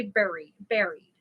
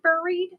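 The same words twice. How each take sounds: First: "buried" said BERRY-d, rhyming with "berry"; alternative pronunciation. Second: "buried" said BUR-eed, loud and raised; first pronunciation option. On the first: Asking viewers the other option, "buried" as BERRY-d. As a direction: offer "buried" with an "eh" vowel, falling and loud. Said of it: "Or do you say". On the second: Asking viewers how they say it, "buried" as BUR-eed. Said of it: "do you pronounce it". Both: Shown as a demonstration.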